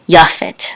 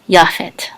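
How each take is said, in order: First: The first vowel is 'ah', ending in 't'. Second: The same.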